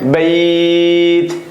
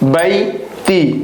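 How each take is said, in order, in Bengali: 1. শব্দটি একটি খালি ব্যঞ্জনধ্বনি দিয়ে শেষ হয়। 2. শব্দটি একটি ছোট ই-স্বর দিয়ে শেষ হয়। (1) "ওয়াকফ করলে হবে বাইত" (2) "যদি ওয়াকফ সারা পড়ি তাহলে হবে বাইতি"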